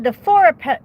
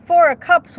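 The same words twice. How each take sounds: First: Said in the usual way. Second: "Four of Cups" said louder and higher as a quick correction; correcting to Four of Cups. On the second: Real, not acted. Tarot reader correcting herself to viewers, loud emphatic "Four of Cups". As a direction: snap "Four of Cups" up to fix the slip, hitting Four.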